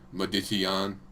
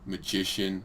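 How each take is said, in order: First: The word is pronounced with a distorted sound. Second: The word is pronounced in the standard way. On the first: The speaker calls it wrong. "I'd say magician for a long time" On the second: The speaker calls it right. "instead of saying like magician"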